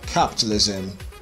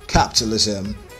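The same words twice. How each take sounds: The two takes are said the same way.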